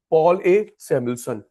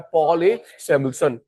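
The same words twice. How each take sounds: First: Slow and deliberate. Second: Said in the usual way. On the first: Shown as a demonstration. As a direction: spell out Paul A Samuelson slowly, word by word. (धीरे-धीरे, रटवाते हुए) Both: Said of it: "uncle का नाम याद हो चुका है".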